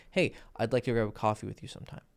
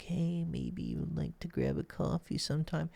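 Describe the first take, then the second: First: Said in the usual way. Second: High, hesitant, meek coffee ask; timid ask. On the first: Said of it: "righteous way to express yourself". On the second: Shown as a demonstration. Coach mocking a timid way of asking a woman out, high and meek. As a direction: ask her out weakly, pitched up and tentative. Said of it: "It can be in general, like".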